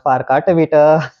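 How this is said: It is said warmly, with a smile.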